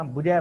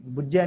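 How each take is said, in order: First: ਬੁਝੈ with a single, undoubled ਝ; single light consonant. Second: ਬੁਝੈ with a doubled, held ਝ; wrong doubled consonant. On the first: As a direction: say ਬੁਝੈ as bu-jhai, without adhak. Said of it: "ਬੁਝੈ ਪੜ੍ਹਨਾ". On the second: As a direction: say ਬੁਝੈ as bujjhai, with adhak. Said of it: "ਨਹੀਂ ਪੜ੍ਹਨਾ". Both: Shown as a demonstration.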